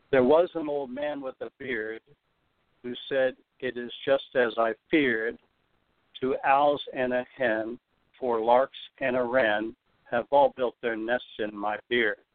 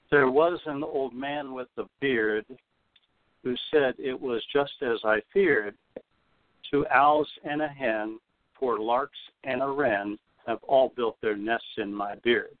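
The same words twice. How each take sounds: First: A jaunty limerick reading; slow rhythmic reading. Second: Slower, each beat leaned on; slower rhythmic reading. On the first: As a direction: read the limerick with the beat marked. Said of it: "I'm gonna read it rather slowly so you can really hear". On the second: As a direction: lean on every third syllable. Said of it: "Again, uh, listen for the anapest rhythm". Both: Shown as a demonstration.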